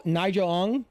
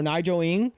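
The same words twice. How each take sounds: First: "Ng" pronounced with an open vowel, as "ong". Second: "Ng" pronounced with a short i, as "ing". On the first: Streamer offering viewers a name, "Ng" said as "ong". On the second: Streamer offering an alternative name, "Ng" said as "ing". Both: Shown as a demonstration. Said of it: "or Nigel Ng".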